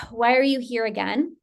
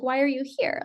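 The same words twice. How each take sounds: First: Sighing, mildly frustrated question; a touch of acted exasperation. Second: Mildly curious, easy question; a touch of acted curiosity. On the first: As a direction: let out a sigh, then ask it wearily. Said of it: "you're frustrated". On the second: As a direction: ask it lightly with gentle interest. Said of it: "Instead of curiosity".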